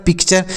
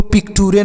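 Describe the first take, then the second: First: "पिक्चर" as pik-cher; ch in the last syllable of "पिक्चर"; correct reading. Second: "पिक्टूरे" as pik-too-ray; hard T and a final ay in "पिक्टूरे"; wrong reading. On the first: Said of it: "इसको आपको चर पढ़ना है". ("पिक्चर" के अंत में चर) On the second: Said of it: "पिक्टूरे नहीं पढ़ना है". ("पिक्टूरे" में चर की जगह टूरे) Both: Shown as a demonstration.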